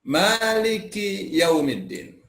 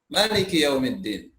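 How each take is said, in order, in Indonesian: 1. Vokal pertama pada Maliki dibaca panjang. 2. Vokal pertama pada Maliki dibaca pendek.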